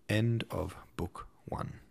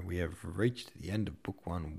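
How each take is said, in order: First: Hushed, slow whisper of the closing line; whispered book ending; dramatic whisper. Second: Said in the usual way. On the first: Acted. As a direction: breathe it out like a secret.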